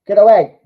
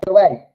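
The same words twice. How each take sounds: First: Louder get away; urgent shout. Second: Said in the usual way. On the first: Real, not acted. Fan yelling at the defence to clear, loud shout. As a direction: bark it at the defenders.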